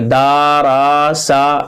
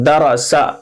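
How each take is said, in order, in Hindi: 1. हर अक्षर को खींचकर लंबा किया जाता है। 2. अक्षर छोटे होते हैं और जल्दी बोले जाते हैं। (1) "खींचना नहीं है, दा रा सा ऐसा नहीं" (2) "जबर जेर पेश को जल्दी पढ़ना है"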